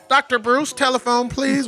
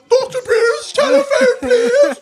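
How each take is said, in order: First: It is said in a plain American accent. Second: It is said in a put-on British accent. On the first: "you might hear" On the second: "what they say in England"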